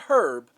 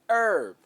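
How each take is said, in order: First: The word begins with an audible H sound. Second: The word begins with no H sound. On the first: The speaker calls it wrong. "Not herb" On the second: The speaker calls it right. "The H is silent"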